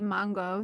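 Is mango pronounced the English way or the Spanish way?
Spanish. It is said with a Spanish pronunciation. This is how the speaker was raised to say it. "I say mango. So it's just how I was raised to talk"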